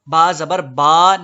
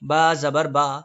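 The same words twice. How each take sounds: First: The final vowel is stretched out long. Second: The final vowel is short and smooth. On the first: The speaker calls it wrong. "जबर को इतना मत खींचें कि अलिफ बन जाए" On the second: The speaker calls it right. "बल्कि बा जबर बा ही रहे"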